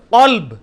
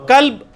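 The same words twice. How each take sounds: First: قلب with a heavy q from the back palate; drawn-out, full-mouthed قلب; deep qaf. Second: کلب with an ordinary front k; plain, thin k in کلب; light kaf. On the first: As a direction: strike the q of قلب far back. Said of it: "اور ایک عام کاف ہے". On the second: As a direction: say کلب lightly, tongue forward on the k. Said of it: "کتے کے لیے". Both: Shown as a demonstration.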